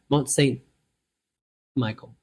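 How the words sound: It is said with an American accent. The speaker calls it wrong. "I'm going to say it like an American"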